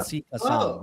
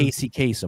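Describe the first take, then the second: First: The name is said with an Arabic pronunciation. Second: The name is said with an American pronunciation. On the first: It keeps the name as given at birth. "that's how you're supposed to pronounce it" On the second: It hides the origin of the name. "the way that he pronounces his name during his lifetime"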